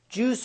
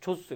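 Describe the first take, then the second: First: The word sounds like 'jooz' with one syllable. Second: The word sounds like 'jaws' with an open vowel. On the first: The speaker calls it right. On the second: The speaker calls it wrong. "이걸 조스라고 그러는 학생"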